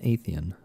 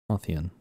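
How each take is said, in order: First: "Athian" with a long A, AY-thee-an; trying a pronunciation. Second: "Athian" with an open AH, AH-thee-an; trying another pronunciation. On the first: Player unsure how to pronounce the land's name, "Athian" as AY-thee-an. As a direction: say "Athian" starting like "ape". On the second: Player retrying the land's name, "Athian" as AH-thee-an. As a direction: say "Athian" starting like "father". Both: Real, not acted. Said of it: "I can never remember how to pronounce things".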